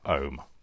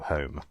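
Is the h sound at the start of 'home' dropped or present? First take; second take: dropped; present. First: The word begins without any h sound. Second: The word begins with a clear h sound. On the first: The speaker calls it wrong. "not home. That's my accent... dropping my H's" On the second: The speaker calls it right. "they say it with an with an H on it"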